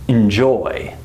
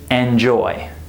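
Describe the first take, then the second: First: The first vowel is a quick, reduced schwa. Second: The first vowel is a full, unreduced vowel. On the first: The speaker calls it right. "The first syllable is unstressed and it's reduced" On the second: The speaker calls it wrong. "We don't say enjoy"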